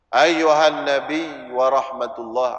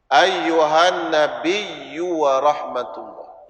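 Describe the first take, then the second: First: The final y sound is short and single. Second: The final y sound is held and doubled. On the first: The speaker calls it wrong. "ya belakang tu banyak orang tak bunyi tasydid ... tak sah" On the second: The speaker calls it right. "Bunyi tak ya yang belakang tu tasydid"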